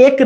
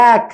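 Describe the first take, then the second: First: এক with a narrow, unspread e; teacher shows the rejected এক, closed e. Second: এক with a wide "æ" vowel; open spread e. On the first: Say এক as "ek", not "yack". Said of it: "এক না". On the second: Teacher corrects to এক, open spread vowel. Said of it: "তখন ছড়িয়ে যাচ্ছে". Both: Shown as a demonstration.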